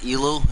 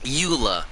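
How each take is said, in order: First: The name is said as 'Elu', l before u. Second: The name is said as 'Eula', u before l. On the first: The speaker calls it wrong. "I always said it wrong by accident because I kind of read it as Elu" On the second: The speaker calls it right. "There we go"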